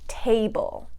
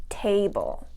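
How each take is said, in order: Both takes have the same delivery.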